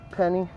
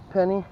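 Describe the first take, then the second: No difference in how they are said.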